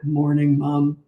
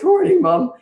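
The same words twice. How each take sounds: First: It is said in a lower, deeper voice. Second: It is said in a higher, boyish voice.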